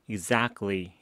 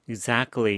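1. 중간의 T 소리는 생략돼요. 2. 중간의 T 소리는 분명하게 발음돼요. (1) "Exactly 이렇게 발음하고 있습니다" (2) "Exactly라고 하지 않고요"

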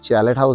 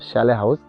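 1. এটা 'ch' দিয়ে শুরু এবং 't' দিয়ে শেষ। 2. এটা 'sh' দিয়ে শুরু এবং এতে কোনো 't' নেই। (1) "অ্যাকচুয়ালি কথাটা উচ্চারণ চ্যালেট হাউস হবে না"

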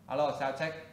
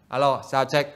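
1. Giọng nói ở xa và nhỏ. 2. Giọng nói ở gần và rõ. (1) "Bây giờ mình để xa cái micro ra nha. Đó thì lúc này các bạn nghe nhỏ đúng không? ... Tiếng khá là nhỏ" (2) "Bây giờ mình để gần lại nè. ... lúc này các bạn nghe cái tiếng khá là rõ"

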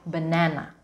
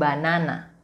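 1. Ada vokal yang direduksi, tidak semua 'ah' penuh. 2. Setiap vokal adalah bunyi 'ah' penuh. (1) "Walaupun di situ ada huruf A, tapi pronunciation-nya sedikit berbeda"

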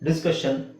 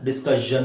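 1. ಕೊನೆಯ ಭಾಗವನ್ನು 'shun' ಎಂದು ಉಚ್ಚರಿಸುತ್ತಾರೆ. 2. ಕೊನೆಯ ಭಾಗವನ್ನು 'shun' ಎಂದು ಉಚ್ಚರಿಸುವುದಿಲ್ಲ. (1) "SSION ಬಂದ್ರೆ ಇಟ್ ಈಸ್ ಆಲ್ವೇಸ್ ಷನ್" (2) "ಡಿಸ್ಕಷನ್ ಅಂತ ಹೇಳಲ್ಲ"

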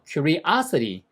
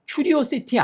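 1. 강세는 'os' 음절에 있어요. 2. 강세는 'os' 음절에 없어요. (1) "y에서 두 번째에 액센트가 있더라" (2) "얘를 자꾸만 curiosity라고 하시는 분이 많아요. curiosity 아니에요"

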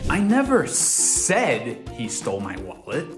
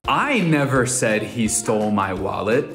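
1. A palavra "said" recebe a ênfase principal. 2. A palavra "I" recebe a ênfase principal. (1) "Agora tô insinuando que não verbalizei nada com minha boca" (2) "Colocando ênfase na I"

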